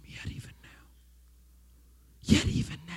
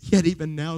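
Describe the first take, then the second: First: Yet even now breathed in a soft whisper; a breathy hush on Yet even now. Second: Said in the usual way. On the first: Shown as a demonstration. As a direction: whisper it gently to him. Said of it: "I want you to whisper to him". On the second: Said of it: "says the Lord".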